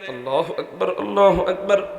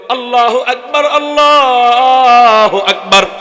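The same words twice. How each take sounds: First: It is said quietly. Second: It is said loudly.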